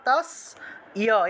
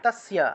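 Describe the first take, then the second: First: A short i vowel splits it, three syllables. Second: The y glides straight onto s, two syllables. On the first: "অথবা তাস ইয়া এভাবে উচ্চারণ করতে পারেন।" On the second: "তাস্যা এভাবে উচ্চারণ করবেন।"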